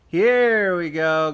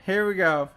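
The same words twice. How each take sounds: First: A slow, loud, drawn-out here we go. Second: Said in the usual way. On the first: Real, not acted. Streamer finding the thread, slow and loud. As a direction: savour finding the juicy thread. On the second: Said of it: "I really just want to do the accent".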